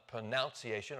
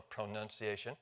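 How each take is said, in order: First: First "pronunciation" with "noun" inside; NOUN variant. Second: Second "pronunciation" with "nun" inside; NUN variant. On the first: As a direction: say "pronunciation" as pro-NOUN-ciation, softly. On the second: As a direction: say "pronunciation" as pro-NUN-ciation, softly. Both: Shown as a demonstration. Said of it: "to a new pron".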